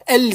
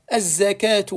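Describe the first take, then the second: First: The L is pronounced clearly before the Z. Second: The L is absorbed into a doubled Z. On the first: The speaker calls it wrong. "On va pas dire al-zakatu" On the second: The speaker calls it right. "on va dire az-zakah, az-zakatu"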